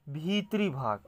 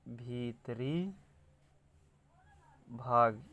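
First: Said in the usual way. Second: भीतरी drawn out softly, a long gap, then भाग; soft, stretched भीतरी, भाग set apart; slow dictation. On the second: Shown as a demonstration. Dictates phrase while writing.

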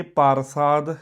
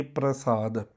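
First: ਪਰਸਾਦ slowly as "par-saad"; full r. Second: ਪ੍ਰਸਾਦ slowly as "pra-saad"; joined pr cluster. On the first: Teacher compares two spellings, slow "par-saad" with full r. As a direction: put the vowel before r in ਪਰਸਾਦ. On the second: Teacher compares two spellings, slow "pra-saad" with joined pr. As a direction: blend p and r at the start of ਪ੍ਰਸਾਦ. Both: Shown as a demonstration. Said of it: "ਇਹ".

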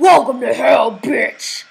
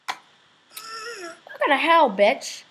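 First: Loud, rough devil growl. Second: High, drawn-out mock greeting; put-on greeting. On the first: Acted. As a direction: roar it like a devil. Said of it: "like the devil voice". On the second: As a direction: stretch it out slowly in a higher voice. Repeats devil greeting in another voice.

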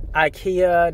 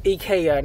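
First: IKEA said as eye-KEE-uh; slow, mistaken ikea starting with EYE; wrong pronunciation. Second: IKEA said as ee-KAY-uh; correct pronunciation. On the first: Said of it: "not ikea". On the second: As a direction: say IKEA with an opening EE and a stressed KAY. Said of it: "It's pronounced ikea, not". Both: Shown as a demonstration.

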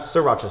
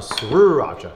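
First: Sriracha as "suh-RAH-cha"; quick, easy "sir-racha" for sriracha; usual pronunciation. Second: Sriracha with a stretched "srrroo" opening; drawn-out S-R blend on sriracha; exaggerated SR pronunciation. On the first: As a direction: say sriracha with a short vowel after the S. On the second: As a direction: say sriracha as "sroo-racha", leaning hard on the R. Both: Shown as a demonstration. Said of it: "Not sriracha".

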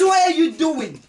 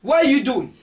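First: Higher and louder, half laughing in disbelief; exasperated laughing demand; louder repeat. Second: Louder, demanding what he is doing; startled demand; sharp question. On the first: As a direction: hammer the question again. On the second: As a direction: call out suspiciously. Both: Acted. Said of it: "I says, what are you doing?".

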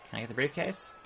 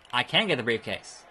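First: Soft question rising on "briefcase"; questioning rise. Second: "can" picked out, falling to "briefcase"; settled statement. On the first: Player wondering about a prop, "briefcase" rising as a question. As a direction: wonder it quietly, lifting "briefcase" at the end. Asks himself, then answers. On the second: Player answers own question, "can" stressed with falling end. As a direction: confirm it, stress "can" and let it fall. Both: Real, not acted.

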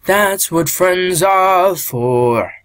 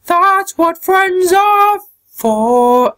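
First: Said in the usual way. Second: Put-on high-pitched, slow tough girl line; high character voice. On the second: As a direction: stretch it out in the fighter's voice. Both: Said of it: "I can't do it with their voice".

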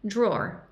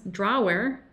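First: "drawer" said DROR, one syllable; "drawer" rhyming with door, slow and clear; correct pronunciation. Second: "drawer" said dra-WER, two syllables, Spanish r; "drawer" read letter by letter, dra-wer; wrong spelling pronunciation. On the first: Teacher modelling the right way, slowly: "drawer" as dror. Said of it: "es drawer". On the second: Teacher showing the mistake: "drawer" as dra-wer. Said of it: "No es drawer". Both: Shown as a demonstration.

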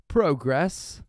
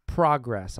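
First: "Progress." said the American way, first vowel as in "go"; American pronunciation. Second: "Progress." said the British way, first vowel as in "pot"; British pronunciation. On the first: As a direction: say "Progress." as "proh-gress", rising at the end. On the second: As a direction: say "Progress." with a short British "prog". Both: Shown as a demonstration. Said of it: "I'm not British".

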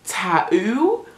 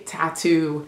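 First: TATTOO with the middle t dropped, "ta-oo"; British pronunciation. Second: TATTOO with both t's clearly sounded; American pronunciation. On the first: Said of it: "Brits say Tattoo". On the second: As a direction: pronounce the middle t in "tattoo". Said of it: "Americans, we say tattoo". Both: Shown as a demonstration.

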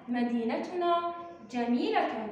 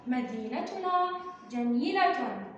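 First: Said in the usual way. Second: Put-on each word read slowly and clearly to the children. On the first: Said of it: "نعيد قراءة الجملة". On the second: Shown as a demonstration. Teacher reading a sentence slowly to young pupils. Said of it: "هيا بنا نكتشف الجملة".

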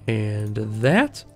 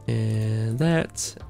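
The two takes are said the same way.

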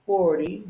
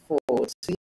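First: American "forty", higher, T flapped. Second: "forty" with a crisp T; British-style "forty", clear aspirated T. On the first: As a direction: tap the T in "forty" like a D. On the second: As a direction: hit a hard T in "forty". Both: Shown as a demonstration. Demonstrates two pronunciations of each number.

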